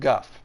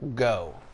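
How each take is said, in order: First: The name rhymes with 'stuff'. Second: The name rhymes with 'so'. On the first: The speaker calls it right. "instead of Guff" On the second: The speaker calls it wrong. "many people call Go"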